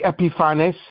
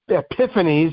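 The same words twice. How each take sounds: First: The name is pronounced the Greek way. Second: The name is pronounced the English way. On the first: "but in Greek it would be Epiphanes" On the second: "maybe pronounced Epiphanes in English"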